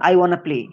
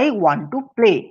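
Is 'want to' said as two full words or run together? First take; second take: run together; full. First: Want and to blend together into wanna. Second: Want and to are said as separate full words.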